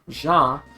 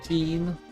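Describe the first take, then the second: First: It is said with a French pronunciation. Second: It sounds like the English word jeans. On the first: "pronounced like in French" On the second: "like jeans, kind of like the clothing"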